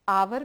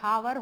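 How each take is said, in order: First: The word begins directly with a vowel sound. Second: The word begins with an audible h sound. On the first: The speaker calls it right. "आपका pronunciation आवर भी हो सकता है" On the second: The speaker calls it wrong. "हावर बोलते हैं तब तो ए हावर हो जाएगा। रॉन्ग।"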